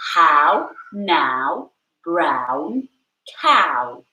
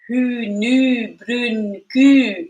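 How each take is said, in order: First: It is said in a British accent. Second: It is said in a Scottish accent. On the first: "if you want to sound British" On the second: "if you wanted to sound Scottish"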